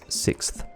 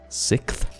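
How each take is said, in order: First: The k-s sound is kept before the th. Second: The k-s sound is dropped, sounding lisped. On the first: The speaker calls it right. "Takes a little more effort to say" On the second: The speaker calls it wrong. "Sounds like you've got a lisp or some kind of speech impediment when you do that"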